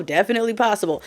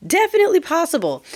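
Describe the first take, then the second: First: Said in the usual way. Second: Pitched way up, insistent; high-pitched definitely, insistent second take; emphatic high repeat. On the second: Shown as a demonstration. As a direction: push it up high and stress definitely. Repeats phrase, higher emphatic take.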